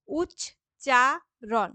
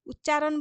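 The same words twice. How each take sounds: First: উচ্চারণ drawn out slowly, each syllable apart. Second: Said in the usual way. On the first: Shown as a demonstration. Teacher showing students the syllables of উচ্চারণ, slow and split. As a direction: stretch উচ্চারণ into separate beats. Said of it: "এরকম করে উচ্চারণ করছি". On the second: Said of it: "একবারেই তো উচ্চারণ বলছি না".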